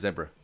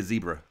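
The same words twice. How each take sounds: First: "zebra" as ZEB-ruh, short e like in bed; British zebra. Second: "zebra" as ZEE-bruh, long ee in the first syllable; American zebra. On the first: Telling chat how he says it, ZEB-ruh with short e. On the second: Telling chat the American way to say it, ZEE-bruh. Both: Shown as a demonstration. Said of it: "it's zebra".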